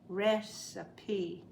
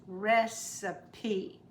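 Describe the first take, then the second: The two takes are said the same way.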